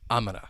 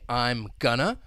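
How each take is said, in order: First: It is squeezed down even further. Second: It is reduced once to gonna. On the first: "if you want to reduce this even further" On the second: "going to getting reduced to gonna"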